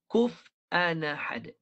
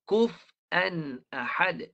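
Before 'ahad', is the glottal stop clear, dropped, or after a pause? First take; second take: dropped; clear. First: The glottal stop is dropped and the words link. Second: The glottal stop before ahad is clearly pronounced. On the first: "Dia baca dengan naqal. Naqal dia baca macam ni" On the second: "dijelaskan Hamzah. Dia baca begini"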